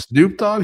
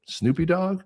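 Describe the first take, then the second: First: High, loud incredulous question; correcting her daughter in high, loud shock; stunned disbelief. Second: Daughter's hesitant high query; mispronouncing the name with a rising question; high unsure question. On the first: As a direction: shoot up in disbelief at the name. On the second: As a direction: ask it high and unsure, like a kid guessing. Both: Retold or imitated.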